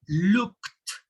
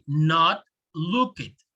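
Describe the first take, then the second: First: The ending sounds like a plain T. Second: The ending sounds like an extra syllable. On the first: The speaker calls it right. "Notice that I have the k and the t" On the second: The speaker calls it wrong.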